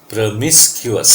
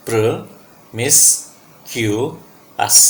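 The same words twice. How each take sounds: First: Promiscuous slowly as one whole word, pro-MIS-kyu-us; syllables joined up. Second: Promiscuous very slowly in four parts, pro-mis-kyu-us; syllable by syllable. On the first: Teacher rejoins the syllables for students, promiscuous slowly as one word. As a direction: say promiscuous slowly and carefully without breaks. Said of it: "आप इनको तोड़ के". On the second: Teacher breaks the word up for practice, promiscuous syllable by syllable, very slowly. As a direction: break promiscuous into separate syllables with long gaps. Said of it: "आप इनको तोड़ के पांच बार बोलोगे".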